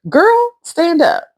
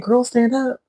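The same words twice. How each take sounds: First: It is said expressively, with strong feeling. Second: It is said flatly, without much feeling. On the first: The speaker calls it right. "it's a whole feeling and meaning to when you say" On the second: The speaker calls it wrong. "I want to just say girl, stand up, but you can't say it that way"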